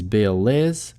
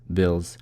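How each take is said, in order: First: Bill links smoothly into a full 'is' syllable. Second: Bill ends in a voiced z sound only. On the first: "Вы можете соединить bill is" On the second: "В быстрой речи, скорее всего, просто произнесете bills"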